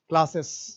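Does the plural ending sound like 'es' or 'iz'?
es. The ending is pronounced like 'es'. This is how we say it. "हम लोग पढ़ते हैं"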